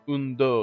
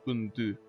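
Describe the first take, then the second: First: The second word ends in an 'oh' vowel. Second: The second word ends in a French 'eu' vowel. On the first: The speaker calls it wrong. "It's not un do" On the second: The speaker calls it right. "it's un deux"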